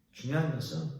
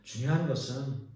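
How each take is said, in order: Both takes have the same delivery.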